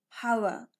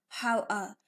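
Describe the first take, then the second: No difference in how they are said.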